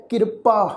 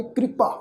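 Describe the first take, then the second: First: ਕਿਰਪਾ said as "kir-pa", vowel before r; wrong pronunciation. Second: ਕਿਰਪਾ said as "kri-pa", k and r joined; correct pronunciation. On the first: Teacher warns the congregation, ਕਿਰਪਾ mispronounced "kirpa". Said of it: "ਇਸ ਢੰਗ ਨਾਲ ਉਚਾਰਨ ਨਹੀਂ". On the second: Teacher shows the congregation ਕਿਰਪਾ as "kripa". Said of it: "ਅਸੀਂ ਉਚਾਰਨ ਕਰਾਂਗੇ". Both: Shown as a demonstration.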